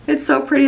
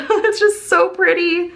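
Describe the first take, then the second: First: Said in the usual way. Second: Higher and slow, laughing into a dreamy coo; cooing delight. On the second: Real, not acted. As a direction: melt over how pretty it is, drawn out. Gushing over cute planner scenes.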